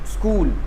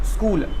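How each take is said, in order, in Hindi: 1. s सीधे k से जुड़ जाता है। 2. s सीधे k से जुड़ जाता है।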